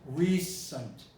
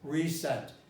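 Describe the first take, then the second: First: The second syllable has a reduced, weak vowel. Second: The second syllable has a full, clear vowel. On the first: The speaker calls it right. "It's always pronounced recent, obscuration" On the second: The speaker calls it wrong. "Recent is never pronounced recent"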